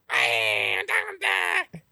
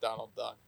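First: It is said in a Donald Duck impression. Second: It is said in his normal voice.

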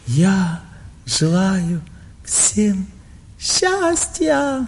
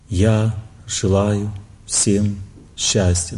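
First: It is said with showy, enjoyable emotion. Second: It is said in a bad mood.

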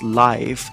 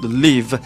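First: The vowel sounds like 'eye', as in 'alive'. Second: The vowel sounds like 'ih', as in 'give'. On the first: This is how people usually read the title. The speaker calls it wrong. "they will pronounce it as live" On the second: This is how the writer intended the title. The speaker calls it right. "what I intended for the script is for it to be called Live"

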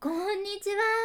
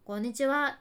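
First: It is said in a fawning, coaxing way. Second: It is said in a cheeky, impudent way.

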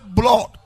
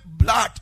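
First: The word is said heavily, with great weight. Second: The word is said lightly, without weight. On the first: The speaker calls it right. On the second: The speaker calls it wrong. "It's not heavy"

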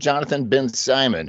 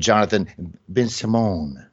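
First: The name is pronounced the plain English way. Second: The name is pronounced the French way.

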